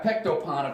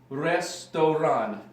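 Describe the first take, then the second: First: The word begins with a P sound. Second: The word begins with an R sound. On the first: The letters are read as if they were English. The speaker calls it wrong. "So you got Pektopan, according to my sister" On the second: The letters are read as Russian. The speaker calls it right. "it would be restoran"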